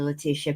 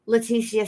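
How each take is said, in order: First: The name is said with an English pronunciation. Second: The name is said with a Spanish pronunciation. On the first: The speaker calls it right. "let me say her name correctly" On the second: The speaker calls it wrong. "I'm Mexican, and Leticia is how you'll say the name"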